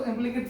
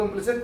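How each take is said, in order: First: इम्प्लिकेट said with a K sound in place of S; इम्प्लिकेट as "im-pli-kate", hard K; hard-k pronunciation. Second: Said in the usual way. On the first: Shown as a demonstration. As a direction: say इम्प्लिकेट ending in "-ket". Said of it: "कई लोग इनको इम्प्लिकेट functions बोल देते हैं". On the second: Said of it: "explicit और इम्प्लिसिट बोलता हूँ".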